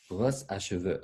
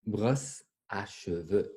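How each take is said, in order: First: Said in the usual way. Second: "Brosse à cheveux" said slowly, each word drawn out; slow word modelling. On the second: Shown as a demonstration. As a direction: stretch out "Brosse à cheveux" for learners. Teacher models new word slowly.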